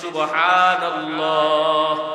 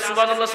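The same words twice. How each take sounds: First: It is said slowly and carefully. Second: It is said quickly and hurriedly.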